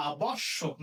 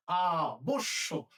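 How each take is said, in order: First: আবশ্যক as "a-bawsh-shok", open second vowel; wrong open vowel. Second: Slow আবশ্যক as "aa-bosh-shok"; closed o vowel. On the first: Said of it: "আমরা বলতে পারি না". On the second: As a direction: round the second vowel of আবশ্যক to o, stretched. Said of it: "না, হবে কি?". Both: Shown as a demonstration.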